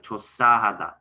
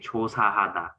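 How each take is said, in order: First: The second syllable is hit hard and forcefully. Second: The second syllable is said lightly and smoothly. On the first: The speaker calls it wrong. "you kind of approach it very like aggressively" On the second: The speaker calls it right. "normally you would just say"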